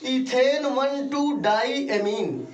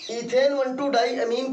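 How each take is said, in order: First: ethane one two डाईएमीन slow and raised, word by word; emphatic slow dictation. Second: Said in the usual way. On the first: Shown as a demonstration. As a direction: spell it out slowly for struggling pupils. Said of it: "वो लोग ध्यान देंगे". (ज़ोर देकर धीरे-धीरे समझाते हुए)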